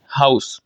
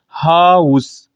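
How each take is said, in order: First: Said in the usual way. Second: हाउस slowly stretched as "haa... us"; diphthong split. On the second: Shown as a demonstration. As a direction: draw out the "a", then move to "u" in हाउस. (हाउस को खींचकर "हा... उस" बोलें) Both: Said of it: "एक vowel से मैं दूसरे vowel की तरफ गया".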